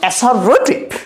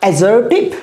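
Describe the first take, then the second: First: The consonant after the first vowel is an s. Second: The consonant after the first vowel is a z. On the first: The speaker calls it wrong. "not assertive" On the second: The speaker calls it right. "এটার pronunciation হচ্ছে assertive"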